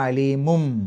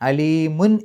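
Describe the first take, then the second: First: The word ends with an m sound. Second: The word ends with a clear n sound. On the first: The speaker calls it right. "മീമിലേക്കാണ് പോവുക" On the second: The speaker calls it wrong. "അലീമുൻ എന്നല്ല"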